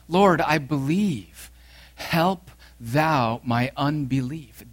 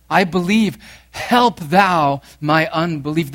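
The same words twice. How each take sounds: First: Slow, tearful plea to Christ; tearful cry. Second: Louder, preached cry of faith. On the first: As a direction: stretch it out like a broken father. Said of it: "he cried out in tears". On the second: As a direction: call it out as the cry of every struggling believer. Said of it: "This is the cry of the faithful". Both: Acted.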